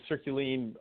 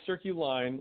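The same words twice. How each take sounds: First: It is said the way French speakers would. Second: It is said like English circles and lines. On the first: This is how people in Europe say it. The speaker calls it wrong. "people in France and Europe tend to pronounce it Circuline" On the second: This is the band's intended name. The speaker calls it right. "It is Circuline, like circles and lines"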